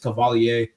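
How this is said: The name is pronounced the French way. "I like to think the French are people sometimes, so I pronounce it that way"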